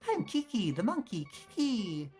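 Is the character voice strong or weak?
strong. A stronger, more exaggerated put-on character voice. The speaker calls it right.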